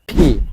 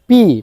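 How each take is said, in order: First: The p has a strong puff of air. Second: The p is plain with no puff of air. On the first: The speaker calls it right. "শুদ্ধভাবে উচ্চারণ করতে হবে ফি" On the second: The speaker calls it wrong. "প দিয়ে এরকম না"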